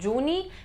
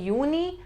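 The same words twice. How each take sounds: First: It begins with an English J sound. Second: It begins with a Y sound. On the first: The speaker calls it wrong. "So it's not Juni" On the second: The speaker calls it right. "in German we pronounce J as Y"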